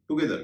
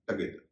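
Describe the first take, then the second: First: The first vowel sounds like 'oo'. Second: The first vowel sounds like 'uh'. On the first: The speaker calls it wrong. "टगेदर को कई लोग टुगेदर कहते हैं" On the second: The speaker calls it right. "इसका सही उच्चारण है टगेदर"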